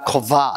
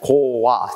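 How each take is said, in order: First: The second syllable starts with a b sound. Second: The second syllable starts with a w sound. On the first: The speaker calls it wrong. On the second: The speaker calls it right.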